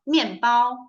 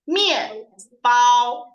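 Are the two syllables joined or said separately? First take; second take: joined; separately. First: The syllables are joined quickly in one rhythm. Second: Each syllable is said separately and fully. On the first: The speaker calls it right. "If you read them together" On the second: The speaker calls it wrong. "If we only read them alone"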